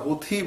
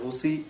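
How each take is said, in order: First: The second syllable starts with an aspirated t. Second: The second syllable starts with a ch sound. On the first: "থ দিয়ে" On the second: "কেউ ছ দিয়ে বলছে"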